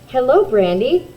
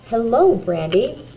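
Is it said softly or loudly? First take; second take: loudly; softly. First: It is said in a louder voice. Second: It is said at a normal, soft volume.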